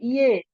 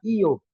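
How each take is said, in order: First: The word ends with an 'e' vowel. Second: The word ends with an 'o' vowel. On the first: This is another regional form. "Bilang lagi iye" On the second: This is how people from Makassar say it. "Orang Makassar bilang iyo"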